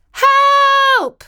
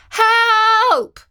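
First: High, loud cry for help from inside the chimney; calling for help. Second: Loud, high cry from the chimney again; calling for help. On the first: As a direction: call out loud and high, stuck and scared. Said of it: "she called out". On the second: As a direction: shout it up high, stuck in the heat. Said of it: "called out Katie again". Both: Acted.

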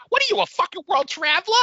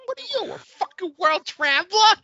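First: High, fast, brash Brooklyn accent imitation; mock Long Island accent, rising at the end; imitating her Brooklyn accent. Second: Put-on brash Long Island accent, rising in disbelief; her Brooklyn accent. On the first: Brother teasing him at home in a Brooklyn accent. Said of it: "my brother will just look at me and go". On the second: Hosts watching the movie, mocking the tourist in a Brooklyn accent. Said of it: "Her accent is so".

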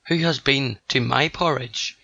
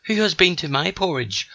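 First: Lightly voiced big father bear; only a hint of a roar, near the narrator's own voice; understated roar. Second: Higher-pitched mother bear; high, indignant storybook growl; mock growl. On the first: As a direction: read the roar with restraint. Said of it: "he roared with such might". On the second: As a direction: growl it lightly, pitched up like a cross she-bear. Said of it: "growled out Missus B". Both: A narrator's reading.

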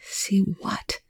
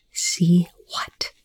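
First: Soft, higher, breathy question; hushed, uneasy question; sick with dread. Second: Hushed, insistent question; tense whispered demand. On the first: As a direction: ask it with quiet dread. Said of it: "feeling sick with dread". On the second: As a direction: whisper it, pressing for an answer. Frightened character repeats his unanswered question. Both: A narrator's reading.

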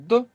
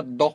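First: Plain D at the front of the mouth; light D with the tongue forward. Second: Heavy D with the tongue further back; emphatic Arabic D from the back. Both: Shown as a demonstration. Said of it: "with the tongue further back".

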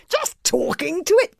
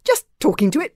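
First: High, disbelieving echo; astonished boy's incredulous echo; astonished gasp. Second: Higher, sheepish admission; embarrassed boy explaining himself; embarrassed mumble. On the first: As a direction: repeat it back in high-pitched astonishment. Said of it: "gasped Fishlegs in astonishment". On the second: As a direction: own up awkwardly, embarrassed. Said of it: "mumbled Hiccup, very embarrassed". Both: A narrator's reading.

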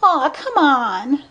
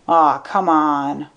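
First: Put-on high, drawn-out girlish plea; pleading. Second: Slow, dismissive disbelief at normal pitch; disbelieving. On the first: Blonde begging Spencer for criticism, high drawn-out pleading. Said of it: "she pleaded". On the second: Spencer scoffing at Pembroke's sinking theory, slow disbelief. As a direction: drag it out, not buying a word. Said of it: "asked Spencer in disbelief". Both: A narrator's reading.

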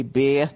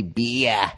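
First: Boston-style "beer" with the R dropped; "beer" as "beeah", Boston accent. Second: Long stretched Australian "beer", low; exaggerated Australian drawl on "beer"; Australian accent. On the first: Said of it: "they basically have a Boston accent". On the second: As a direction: drag out "beer" into a slow "bee-yah" like an Australian. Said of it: "They just stretch it out a little bit more". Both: Shown as a demonstration.

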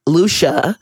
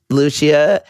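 First: "Lucia" as two syllables, LOO-shuh; "Lucia" with no "ee", just LOO-shuh; corrected pronunciation. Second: "Lucia" as three syllables, loo-SHEE-uh; "Lucia" with a separate "ee" before the final "uh"; wrong pronunciation. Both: Shown as a demonstration. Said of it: "Why can't I say her name right?".

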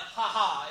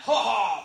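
First: A small ha ha, not the macho one; wrong laugh. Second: Mock macho laugh. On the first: Shown as a demonstration. Comedian showing which laugh a man does not do. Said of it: "But it's not like". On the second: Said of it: "you laugh".

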